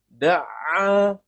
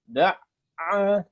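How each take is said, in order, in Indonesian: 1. Suaranya mengalir tanpa terputus. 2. Suaranya terputus di tengah. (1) "tapi harus bersambung ya, berkesinambungan suaranya" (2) "Yang mesti kita hindari jangan sampai da'a"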